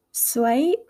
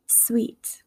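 First: "sweet" with a gliding "sway-eet" vowel; Southern pronunciation. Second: "sweet" with a pure "ee" vowel; Midwestern pronunciation. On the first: Teacher contrasting accents, "sweet" drawled Southern as "swayt". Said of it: "in the Southern accent". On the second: Teacher contrasting accents, "sweet" said Midwestern with pure ee. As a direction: say "sweet" with a plain long ee. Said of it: "in my Midwestern accent". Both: Shown as a demonstration.

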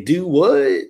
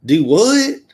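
First: Texan "Do what?". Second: Texas drawl, "Do what?" rising on "what"; Texan "Do what?". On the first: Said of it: "They say". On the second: Host demos a Texas phrase, puzzled Texan accent. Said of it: "Texas was". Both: Shown as a demonstration.

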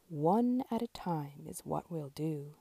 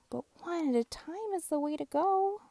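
First: Lower, grand mayor voice; lower, speech-making mayor; mayor's voice. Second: Higher, bright little truck voice; high little truck giving advice; Little Blue's voice. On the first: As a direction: address the crowd like a mayor. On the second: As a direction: teach them in a high kind voice. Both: Acted.

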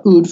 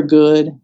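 First: Put-on "ood" with the g left off, baby talk; toddler's "ood". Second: Said in the usual way. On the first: Shown as a demonstration. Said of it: "for good".

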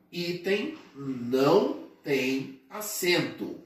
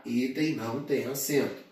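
First: "item não tem acento" slowly, word by word; slow, emphatic. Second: Said in the usual way. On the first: Shown as a demonstration. Teacher drilling an exam favourite into students, slow and emphatic. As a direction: spell out the rule with pauses between words.

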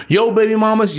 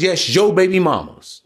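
First: Put-on "Yo baby mamas" pitched up as a question; incredulous echo question. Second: Put-on "yes, yo baby mamas" falling at the end; emphatic confirmation. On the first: Voicing the listeners' doubt about their exes, questioning. Rhetorical question, then confirmed. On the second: Answering the listeners' doubt about their exes, firmly confirming. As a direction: confirm it with weight on "yo". Answers his own rhetorical question. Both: Shown as a demonstration.

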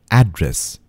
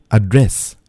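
First: "address" said AD-ress, stress on the start; "address" with a strong AD; mispronounced "address", ad-ress; wrong pronunciation. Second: "Address" said uh-DRESS, stress on the end; "Address" with a weak uh at the start; careful "Address", uh-dress; correct pronunciation. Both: Shown as a demonstration.

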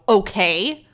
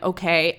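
First: Louder, drawn-out okay with a rise; okay that really means get lost; irritated, pointed okay, tipped upward; hostile okay. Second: Said in the usual way. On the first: Retold or imitated. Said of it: "Absolutely fuck you". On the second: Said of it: "this is how I said it".

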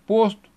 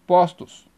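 First: "posto" with closed ô in the first syllable. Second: "postos" with open ó in the first syllable. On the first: Teacher giving a singular example, closed O. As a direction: say "posto" as "POHS-too". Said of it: "O fechado". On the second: Teacher giving a plural example, open O. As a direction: say "postos" as "PAWS-toos". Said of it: "para o aberto". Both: Shown as a demonstration.

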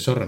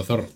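First: "zorro" begun with an s sound; seseo. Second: "zorro" begun with a th sound; Castilian th. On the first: Retold or imitated. Mimicking the other speaker's zorro, said with an s. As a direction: say "zorro" as sorro, with s. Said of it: "lo dices mal, porque dices zorro". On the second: Shown as a demonstration. Correcting the other speaker's zorro, with Castilian th. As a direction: say "zorro" as thorro, tongue between teeth. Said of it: "porque dices zorro, no zorro".

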